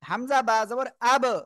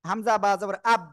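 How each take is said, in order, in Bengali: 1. শেষ ব্যঞ্জনটি একটি দ্রুত ঝাঁকুনি দিয়ে ছাড়া হয়। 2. শেষ ব্যঞ্জনটি ঝাঁকুনি ছাড়া ধরে রাখা হয়। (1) "শক্তভাবে ধাক্কা দিয়ে" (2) "ধরে রাখে"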